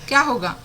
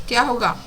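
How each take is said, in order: The two takes are said the same way.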